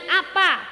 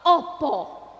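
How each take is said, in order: First: The vowels are pronounced as a sounds. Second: The vowels are pronounced as o sounds. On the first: This is the listener's dialect. "Jenengan apa?" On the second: This is the speaker's own dialect. "dirubah kabeh dadi o"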